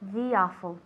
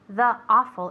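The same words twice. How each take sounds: First: The two words are linked smoothly together. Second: The two words are said separately. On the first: The speaker calls it right. "ya hacemos el linking" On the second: The speaker calls it wrong. "No es the awful"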